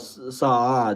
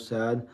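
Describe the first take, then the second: First: The vowel in the name is drawn out long. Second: The vowel in the name is short. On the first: The speaker calls it right. "like if you the do the a longer" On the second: The speaker calls it wrong. "so no sad"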